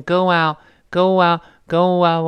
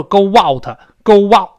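First: "go out" slow, with a very light w link; very light glide. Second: "go out" with a loud, heavy "WOW" in it; overdone W glide. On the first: Teacher shows the correct linking, very light. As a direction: ease from "go" into "out", barely touching the w. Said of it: "特别轻". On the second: Teacher shows what not to say, heavy glide. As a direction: punch the w between "go" and "out" too hard. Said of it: "不能说". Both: Shown as a demonstration.

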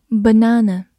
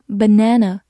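First: Said in the usual way. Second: "banana" said the American way; American pronunciation. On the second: Shown as a demonstration. Teacher shows learners the alternative, American pronunciation of "banana". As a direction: give "banana" its American vowel in the stressed middle. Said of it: "或者美式发音".

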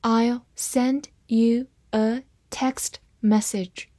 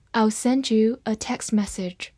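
First: Slow, separated words; slow reading. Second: Said in the usual way. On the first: Shown as a demonstration. Teacher reading a sentence once for learners, slowly. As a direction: read it through slowly, word by word. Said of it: "好，慢读一遍".

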